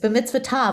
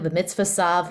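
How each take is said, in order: First: The last syllable starts with a T sound. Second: The last syllable starts with an S sound. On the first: The speaker calls it right. "It's b'mitzvah tav with a T" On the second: The speaker calls it wrong. "not sav with an S, but that's how it was in the Yiddish pronunciation"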